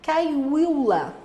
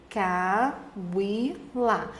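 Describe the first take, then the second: First: Said in the usual way. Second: Cauila broken into three separate syllables. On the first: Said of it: "Por exemplo, a palavra". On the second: Shown as a demonstration. Teacher making students notice the vowel, syllable by syllable. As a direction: pause after each syllable of Cauila. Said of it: "que você perceba aqui".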